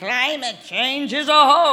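It is said like a very old man.

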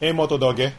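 The voice is calm and relaxed. The phone responds to it. The speaker calls it right. "I'm very calm"

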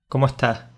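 The final s sounds are aspirated, Andalusian style.

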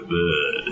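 It is said in a New Orleans accent.

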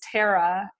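The name is said the Canadian way. "in Canada is Tara"

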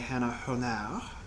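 The name is said in a Louisiana accent.

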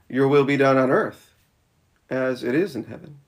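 The pause comes right after the word earth. God's will on earth matches how it is in heaven. The speaker calls it right. "I would actually say it probably should be that second one"

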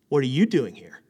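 It sounds sharp and disapproving.

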